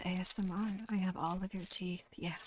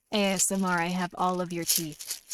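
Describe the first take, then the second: First: Much softer, hushed ASMR threat; near-silent creepy ASMR tease. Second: Lightly hushed ASMR threat; mock ASMR. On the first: Pretend. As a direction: breathe it close to the mic.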